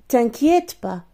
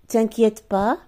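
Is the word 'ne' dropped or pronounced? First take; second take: dropped; dropped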